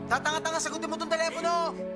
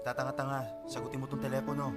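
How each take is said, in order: First: It is said seriously, in an angry tone. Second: It is said lightly, without real anger.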